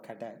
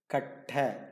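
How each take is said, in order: First: The middle t sound is short and light. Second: The middle t sound is long and stressed. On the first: The speaker calls it wrong. "you don't hear people saying kata" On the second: The speaker calls it right. "It is katta, meaning wood"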